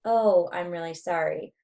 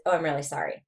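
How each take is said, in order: First: Drawn-out, unhurried apology; slower rate. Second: Quick, run-together apology; faster rate. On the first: Lecturer demonstrates rate to students, slower delivery. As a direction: stretch out "Oh" and take your time. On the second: Lecturer demonstrates rate to students, hurried delivery. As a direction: rush through "Oh, I'm really sorry". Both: Shown as a demonstration. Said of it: "The rate's gonna make a difference".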